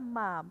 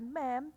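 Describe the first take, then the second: First: The vowel sounds like an open a. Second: The vowel sounds like the e in 'bed'. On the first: The speaker calls it right. "tapi bacanya mam" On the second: The speaker calls it wrong. "bukan mem"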